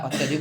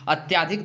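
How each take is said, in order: First: अत्यधिक with short a, atyadhik; correct form. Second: अत्याधिक with long aa, atyaadhik; wrong form said aloud. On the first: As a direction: say अत्यधिक crisply as at-ya-dhik. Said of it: "अत्यधिक होता है". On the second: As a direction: say अत्याधिक as at-yaa-dhik, the wrong way. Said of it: "अत्याधिक नहीं होता है". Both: Shown as a demonstration.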